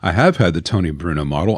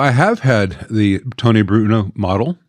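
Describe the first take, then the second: First: It is said in a calm voice. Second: It is said in an emotional voice.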